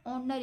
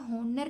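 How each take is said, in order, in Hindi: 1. शुरुआत का h silent होता है। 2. शुरुआत का h उच्चारित होता है। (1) "ऑनर इसको पढ़ेंगे हम" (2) "हम यहाँ पर होनर नहीं पढ़ते"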